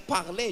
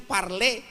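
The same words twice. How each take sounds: First: "parler" French-style, r in the throat; as pronounced. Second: "parler" with a plainly sounded r; as written. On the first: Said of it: "cara bacanya parler". ("parler" cara baca Perancis) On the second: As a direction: say "parler" by its spelling. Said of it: "tulisannya parler". ("parler" dibaca sesuai tulisan) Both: Shown as a demonstration.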